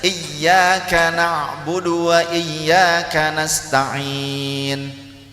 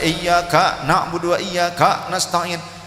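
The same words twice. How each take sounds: First: The k flows smoothly with no catch. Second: A sharp glottal catch jerks before the k. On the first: The speaker calls it right. "yang benar saja" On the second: The speaker calls it wrong. "Seperti ada hamzah sukun di situ di depan kaf"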